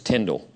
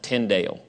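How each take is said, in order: First: The name is said with the standard pronunciation. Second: The name is said with a variant pronunciation. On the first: This is how the name is said. The speaker calls it right. "but it's Tyndale" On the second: Some people say it this way. The speaker calls it wrong. "Some people pronounce it Tyndale"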